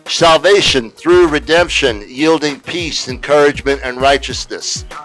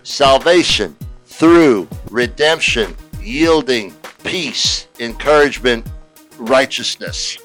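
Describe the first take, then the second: First: It is said fast. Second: It is said slowly.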